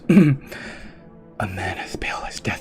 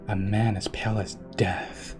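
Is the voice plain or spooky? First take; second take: spooky; plain. First: It is read in a put-on spooky voice. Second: It is read in a normal everyday voice.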